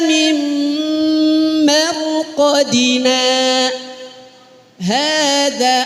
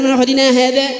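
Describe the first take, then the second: First: A short breathless pause comes after marqadina. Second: Marqadina runs straight into hadza without pausing. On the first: The speaker calls it right. "Berhenti sejenak, Qadina, tahan napas. Dua ketukan" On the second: The speaker calls it wrong. "Kebiasaan yasinan sih begini nih. Akhirnya kaidahnya nggak kepake"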